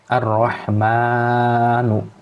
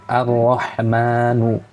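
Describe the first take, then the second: First: A vowel is drawn out too long. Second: The vowels have their normal length.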